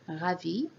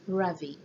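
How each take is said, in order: First: The r is the French r sound. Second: The r is the English r sound. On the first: The speaker calls it right. "Instead of saying ravi" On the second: The speaker calls it wrong. "they will have the tendency to say ravi"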